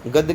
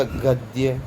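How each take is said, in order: First: गद्य said as "gadd", without the y; गद्य with a bare d; wrong pronunciation. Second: गद्य said as "gad-dya", with a y glide; गद्य drawn out with a clear "dya"; correct pronunciation. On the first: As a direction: drop the y glide in गद्य. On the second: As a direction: sound the y after d in गद्य. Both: Shown as a demonstration. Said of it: "आपको शुद्ध पढ़ूंगा".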